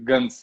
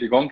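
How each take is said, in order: First: The name ends in an s sound. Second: The name ends in a hard k sound. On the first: This is how the owner says his own name. The speaker calls it right. "my last name is Guns. You pronounce it uh, Guns" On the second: This is how people in the States say the name. The speaker calls it wrong. "I came to the States and I was, oh, Gonk is here"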